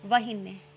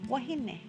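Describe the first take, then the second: First: The word begins with a V sound. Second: The word begins with a W sound.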